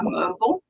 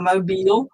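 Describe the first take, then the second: First: "mobile" rhyming with noble; mobile as MOH-bul. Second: "mobile" ending like "feel"; mobile as moh-BEEL. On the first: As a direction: say "mobile" as MOH-bul, weak last vowel. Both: Shown as a demonstration. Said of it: "How do you pronounce it?".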